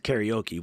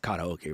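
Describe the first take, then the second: First: It has an American English pronunciation. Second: It has a Japanese pronunciation.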